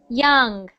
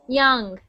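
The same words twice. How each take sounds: The two takes are said the same way.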